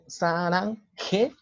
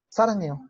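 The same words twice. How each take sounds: First: The h sound after the ng is pronounced. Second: The h sound after the ng is dropped. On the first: The speaker calls it wrong. "yo no digo sarangeo" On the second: The speaker calls it right. "lo digo sin esa G, nada más digo sarangeo"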